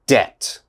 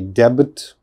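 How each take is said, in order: First: The B sound is silent. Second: The B sound is pronounced. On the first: The speaker calls it right. "It is debt, D E T" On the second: The speaker calls it wrong. "Never say debit or something like that"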